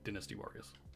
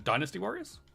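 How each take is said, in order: First: It is said with an English pronunciation. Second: It is said with an American pronunciation.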